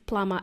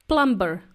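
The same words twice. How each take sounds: First: The b sound is silent in the middle. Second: The b sound is pronounced in the middle. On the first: The speaker calls it right. "the correct pronunciation is plumber" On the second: The speaker calls it wrong. "he would say plumber"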